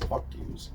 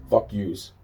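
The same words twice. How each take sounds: First: Breathy whispered curse under the breath; whispered, not voiced at all. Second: Said in the usual way. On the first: Real, not acted. Muttered curse, then repeated plainly.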